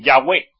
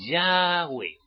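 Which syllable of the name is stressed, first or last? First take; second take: last; first. First: The stress is on the last syllable. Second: The stress is on the first syllable. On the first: The speaker calls it wrong. "acento el ae" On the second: The speaker calls it right. "Porque es Yahweh"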